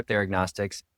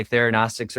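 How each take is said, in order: First: "theragnostics" said as therag-NOSTICS, G sounded; pronounced with G. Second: "theranostics" said as thera-NOSTICS, no G; pronounced without G. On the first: Doctor showing both accepted ways, "theragnostics" with the G sounded. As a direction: put a hard G before N in "theragnostics". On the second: Doctor showing both accepted ways, "theranostics" without a G. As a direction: leave any G out of "theranostics". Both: Shown as a demonstration. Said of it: "pronounce it in certain ways".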